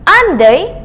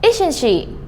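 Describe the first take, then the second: First: "aren't they" higher and louder, rising at the end; rising intonation. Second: "isn't she" ending on a clear pitch drop; falling intonation. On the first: Teacher contrasting the unsure tag for students, rising intonation. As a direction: lift the end of "aren't they", not quite sure. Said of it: "if the intonation goes up". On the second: Teacher changing the tune to confirm information, falling intonation. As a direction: bring "isn't she" down, confirming what is known. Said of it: "change the intonation". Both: Shown as a demonstration.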